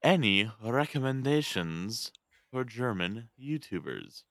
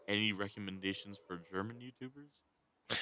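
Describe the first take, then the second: First: Slow, raised, deliberate question; louder repeat. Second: Softly spoken question, hard to hear; too quiet. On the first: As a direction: say it again slowly and higher, to be heard. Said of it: "Say it again, please". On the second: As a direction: ask it softly, under normal volume. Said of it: "Why are you getting so quiet?". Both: Real, not acted.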